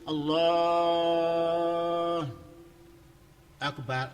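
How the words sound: A long pause separates the two words. "wakaf panjang"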